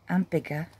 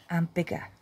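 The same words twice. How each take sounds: The two takes are said the same way.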